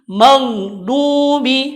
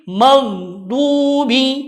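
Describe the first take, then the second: Both takes have the same delivery.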